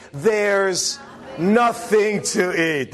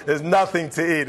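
First: Put-on slow, drawn-out kid's complaint; drawn-out whine. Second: Said in the usual way. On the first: Kid whining to the parent, slow drawn-out complaint. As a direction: drag out nothing like a bored kid. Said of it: "and they say". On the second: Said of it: "There you go".

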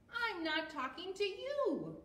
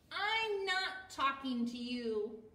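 First: High-pitched acted huff; mad. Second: Loud, slow story-book huff; mad. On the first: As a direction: huff it high, right up to the last word. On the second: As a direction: push out each word slowly and loudly. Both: A narrator's reading. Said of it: "they're mad at each other".

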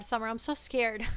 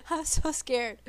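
First: Said in the usual way. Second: Nervous laugh on so scared. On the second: Real, not acted. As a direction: giggle it out nervously. Repeats while laughing.

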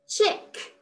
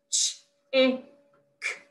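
First: Said in the usual way. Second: "Ch-, I, k," one sound at a time; "Ch-, I, k," as separate phonics sounds, short i; sound talk. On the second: Shown as a demonstration. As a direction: split chick into "Ch-, I, k," with pauses. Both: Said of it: "sound talk the words".

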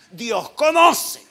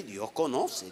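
First: Loud, high, drawn-out mock protest; mock protesting member. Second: Said in the usual way. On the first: Pastor imitating a member excusing himself, loud mock protest. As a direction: shout it slowly as someone else's excuse. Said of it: "Hay uno que dice".

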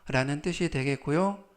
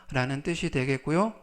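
The two takes are said the same way.

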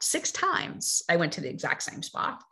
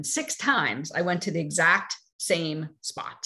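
First: Hushed whisper, same words again; whispered, letting it sink in; whispered repeat. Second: Said in the usual way. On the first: Shown as a demonstration. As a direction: drop it to a whisper for effect. Repeats line, second whispered.

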